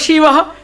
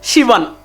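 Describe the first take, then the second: First: The word ends in a vowel. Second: The word ends with an added n sound. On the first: The speaker calls it right. "They have to say Shiva" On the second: The speaker calls it wrong. "N will come there"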